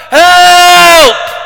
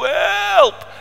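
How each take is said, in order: First: Piercing high, long shout for help; huge scream. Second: High, drawn cry, held back in volume; a smaller high-pitched yell for help; repeated cry for help. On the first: Man in the water crying for help, huge scream. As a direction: scream it out at full volume, held long. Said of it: "klonk er een hele grote schreeuw". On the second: Storyteller redoing the drowning man's cry, high but restrained. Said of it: "Klonk er een enorme schreeuw". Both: Acted.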